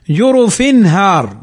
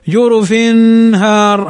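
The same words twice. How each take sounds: First: Slow "جرف هار", short clear n with no hum before "هار"; correct izhar. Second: "جرف هار" with a drawn-out nasal n, as a mistake; wrong nasalized demo. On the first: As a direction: release the tanween of "جرف" cleanly into the h of "هار". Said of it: "وإنما نقول". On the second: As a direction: hum the tanween at the end of "جرف" long before "هار". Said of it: "هذا خطأ". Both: Shown as a demonstration.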